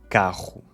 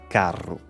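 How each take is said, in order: First: The R is made at the back of the throat. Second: The R is rolled with the tongue tip. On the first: This is the newer pronunciation that replaced the older one. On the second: This is the older pronunciation.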